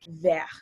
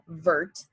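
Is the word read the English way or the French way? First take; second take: French; English. First: It is said with a French pronunciation. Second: It is read as an English word would be. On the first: The speaker calls it right. "when you pronounce it in French, it's said vert" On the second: The speaker calls it wrong. "it looks like it would be said vert, but if you were to pronounce it in English"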